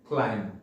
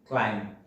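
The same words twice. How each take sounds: Both takes have the same delivery.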